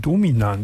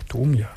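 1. Der Name hat in der Mitte einen extra n-Laut. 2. Der Name hat in der Mitte keinen extra n-Laut. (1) "Die Leute sagen immer Dominan zu mir" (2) "Das ist doch Domian"

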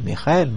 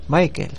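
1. El nombre se dice con pronunciación alemana. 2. El nombre se dice sin pronunciación alemana. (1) "si queréis pronunciarlo tal como yo, pues decís Michael" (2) "no me hagáis Michael"

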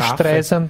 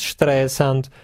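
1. Der Name wird amerikanisch ausgesprochen. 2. Der Name wird deutsch ausgesprochen. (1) "In Amerika heißt es ja Streisand" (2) "das heißt ja nur bei uns Streisand"

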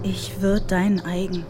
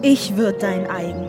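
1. Die Zeile wird flach und monoton gesprochen. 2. Die Zeile wird warm gesprochen, wie eine Liebeserklärung. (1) "Wiederholt Echo monoton" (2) "Sie verwandelt seine Zurückweisung in eine Liebeserklärung"

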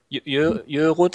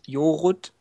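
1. Der erste Vokal ist ein gerundeter ö-Laut. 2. Der erste Vokal ist ein einfacher o-Laut.

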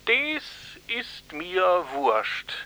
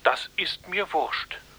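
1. Es hat eine starke regionale Dialektfärbung. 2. Es wird in Standard-Hochdeutsch gesprochen. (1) "Eigentlich klang es eher so" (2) "Das ist doch eine strikt hochdeutsche Wiedergabe"

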